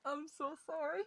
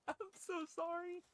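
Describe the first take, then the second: First: Said in the usual way. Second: "I'm so sorry" said high and soft in a tiny mock-guilty voice; small mock apology. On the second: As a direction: squeak "I'm so sorry" like a caught child.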